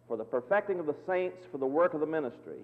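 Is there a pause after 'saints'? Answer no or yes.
no. There is no pause after 'saints'. The saints are perfected so they can do the ministry. The speaker calls it right.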